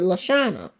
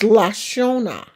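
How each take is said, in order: First: The name is said the family's usual way. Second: The name is said with a French-style vowel. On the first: This is how the speaker's family said it. "everybody in my family said Lashana" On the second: This is how outsiders said it. "if it's French, it's Lashona. It's not pronounced how we pronounce it"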